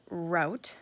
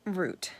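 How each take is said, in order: First: ROUTE rhyming with OUT; ROUTE with an OW vowel; pronunciation variant. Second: ROUTE rhyming with BOOT; ROUTE with a long OO vowel; pronunciation variant. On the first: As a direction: say ROUTE as ROWT. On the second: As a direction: say ROUTE as ROOT. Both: Shown as a demonstration. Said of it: "We say route sometimes".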